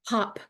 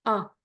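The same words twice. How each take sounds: First: Said in the usual way. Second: OP broken into separate sounds, h, o, p; sounded out. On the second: Shown as a demonstration. Retelling sister's phonics lesson, sounded out. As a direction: sound out OP slowly, sound by sound with gaps. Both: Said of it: "she helped me sound out the words".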